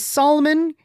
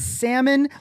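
First: The L in the word is sounded. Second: The L in the word is silent. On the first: The speaker calls it wrong. "If you say salmon, you're wrong" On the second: The speaker calls it right. "It is salmon"

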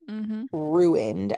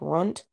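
First: The word is said with two syllables. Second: The word is squeezed into one syllable. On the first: The speaker calls it right. "the word ruined" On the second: The speaker calls it wrong. "almost as if it were spelled RUNT"

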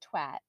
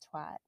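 First: The word is said with a British pronunciation. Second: The word is said with an American pronunciation. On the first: "In England, like they say twat" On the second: "instead of twat"

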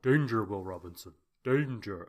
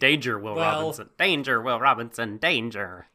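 First: It is said in a deep robot voice. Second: It is said in a higher, non-deep robot voice. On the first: The speaker calls it right. "more of a deep voice robot" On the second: The speaker calls it wrong. "I was doing, like, Alpha from Power Ranger"

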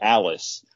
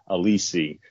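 First: The name sounds like the English name Alice. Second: The name sounds different from the English Alice. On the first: This is the anglicized reading of the spelling. The speaker calls it wrong. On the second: This is how the player's name is really pronounced. The speaker calls it right. "but it is actually pronounced Alisi"

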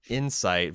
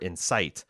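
First: The stress is on the first syllable. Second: The stress is on the second syllable. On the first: It names the word meaning understanding. "we tend to put the emphasis on the first syllable for Insight" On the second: It names the word meaning to stir up. "versus the second for Insight"

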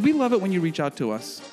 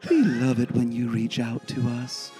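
First: It is said in an ordinary, natural speaking voice. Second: It is said in a calm, smooth radio-announcer voice.

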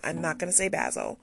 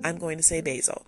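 First: Basil is said in a non-American way. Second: Basil is said the American way.

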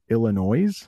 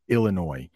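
First: The final S sound is pronounced. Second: The final S sound is silent. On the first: The speaker calls it wrong. "there are some native English speakers who will pronounce that Illinois, but it's not" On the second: The speaker calls it right. "I know it ends with an S, but it's pronounced Illinois"

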